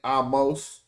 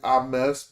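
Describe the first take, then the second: First: The second syllable sounds like 'moss'. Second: The second syllable sounds like 'mess'. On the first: The speaker calls it wrong. "her name ain't Amos" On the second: The speaker calls it right. "It's probably Ames"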